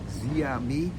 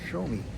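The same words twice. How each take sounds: First: It is said slowly, sounded out as spelled. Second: It is said quickly, syllables run together. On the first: This is how the spelling looks. The speaker calls it wrong. "It looks like" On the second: This is how the name is actually said. The speaker calls it right. "it's actually pronounced, when you say it quickly"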